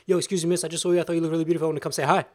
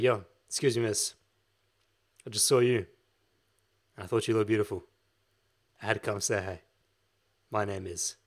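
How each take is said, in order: First: It is rushed together without pauses. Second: It has deliberate silent pauses between phrases.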